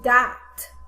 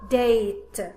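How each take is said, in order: First: The vowel is a short a sound. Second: The vowel is a long a sound. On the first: The speaker calls it wrong. "I no longer say the short sound of the letter A. I do not say, for example" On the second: The speaker calls it right. "now I say the name of the letter"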